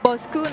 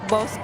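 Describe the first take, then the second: First: The name ends with a final 'u' vowel. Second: The name ends on the 'k' consonant. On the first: The speaker calls it right. "we pronounce it Bosku" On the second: The speaker calls it wrong. "not Bosk"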